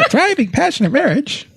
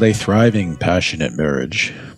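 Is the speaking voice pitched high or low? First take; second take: high; low. First: The voice is pitched unusually high. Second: The voice is pitched unusually low and deep. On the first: "I'm going to try high pitch next time" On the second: "I thought it would sound more sexy with a lower voice"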